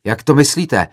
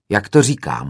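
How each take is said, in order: First: Higher, louder outraged question, stress on to; angry roar. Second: Blunt retort, a touch louder, stress on to; curt hoot. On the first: Student roaring back at the director, retold anger. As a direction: hurl "Jak to myslíte?" as an offended challenge. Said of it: "zařval rozčileně jiný student". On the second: Director answering the student from the podium, dry retort. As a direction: toss back "Jak to říkám?" dryly from the stage. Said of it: "houkl jsem z pódia". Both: Retold or imitated.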